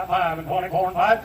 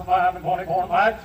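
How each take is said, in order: Both takes have the same delivery.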